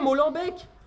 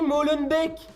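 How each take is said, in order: First: The name is said with a French-style pronunciation. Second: The name is said with the local Belgian pronunciation. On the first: The speaker calls it wrong. "Oubliez Molenbeek" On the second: The speaker calls it right. "on dit Molenbeek"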